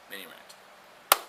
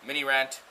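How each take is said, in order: First: Softer, drawn-out echo; under his breath. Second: Said in the usual way. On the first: Real, not acted. Vlogger to himself after a digression, under his breath. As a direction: repeat it quietly, trailing into near-whisper.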